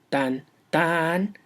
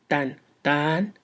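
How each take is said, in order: First: The second beat is long and stressed. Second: The same.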